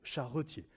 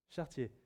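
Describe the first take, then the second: First: The word is said with three syllables. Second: The word is said with two syllables. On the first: The speaker calls it right. "si on va dans le dictionnaire, c'est charretier" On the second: The speaker calls it wrong. "chartier, c'est pas joli"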